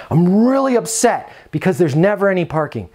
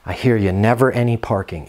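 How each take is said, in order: First: Mildly upset tenant, pitched higher. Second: Lower, calm mirroring reply; calm empathy. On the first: Retold or imitated. Tenant complaining to the manager about parking, mild mock upset. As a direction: act the complaining resident, lightly. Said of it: "Repeat back to them". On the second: Shown as a demonstration. Manager calmly mirroring the tenant's complaint, low and calm. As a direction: mirror her words back calmly and kindly. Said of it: "Now notice my inflections in my voice".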